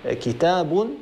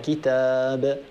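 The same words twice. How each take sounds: First: The word ends with a vowel and an n sound. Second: The word ends on a bare consonant without n. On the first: "هذا تنوين جر" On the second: "نقف بالسكون"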